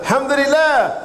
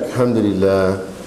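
First: It is said in a bright, cheerful tone. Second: It is said in a low, sad tone. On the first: The speaker is grateful and content. "Not the alhamdulillah" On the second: The speaker is unhappy about something. "He was like, alhamdulillah. ... you seem a little sad"

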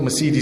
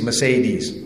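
First: The middle syllable does not sound like 'say'. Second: The middle syllable sounds like 'say'. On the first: The speaker calls it wrong. "it's not Mercedes" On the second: The speaker calls it right. "it's Mercedes. ... because say is from speaking"

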